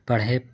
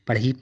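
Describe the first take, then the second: First: The word ends with an 'ay' vowel. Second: The word ends with an 'ee' vowel. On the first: The speaker calls it right. "इसको हम लोग पढ़े पढ़ रहे हैं" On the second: The speaker calls it wrong. "अगर इसको हम लोग पढ़ी पढ़ेंगे तो गलत हो जाएगा"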